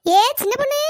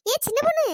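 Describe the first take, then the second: First: Much louder second call; shouting after her. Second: High raised call; pitched-up village call. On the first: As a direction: yell it so she can't pretend. Repeated call, ignored again. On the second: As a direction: call to someone walking away. First call, ignored. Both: Acted.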